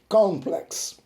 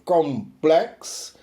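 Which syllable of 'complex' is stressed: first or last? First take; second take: first; last. First: The stress is on the first syllable. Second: The stress is on the last syllable. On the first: "com a sílaba tônica no con" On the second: "com a sílaba tônica lá na última sílaba"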